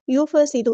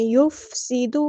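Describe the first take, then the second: First: یفسد with a vowel on the ف; wrong recitation. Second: یفسد with the ف still; correct recitation. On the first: Teacher shows the mistake in یفسد. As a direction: move the ف in یفسد wrongly as یفَسد. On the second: Teacher models the correct یفسد. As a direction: keep the ف in یفسد silent and joined. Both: Shown as a demonstration. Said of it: "ایسے فا کو ہلانا نہیں ہے".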